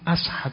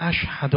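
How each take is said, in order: First: The word is said with an s sound. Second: The word is said with a clear sh sound. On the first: The speaker calls it wrong. "شین رو نمیتونست تلفظ کنه، میگفت" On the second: The speaker calls it right. "وقتی میخواست بگه اشهد ان لا اله الا الله"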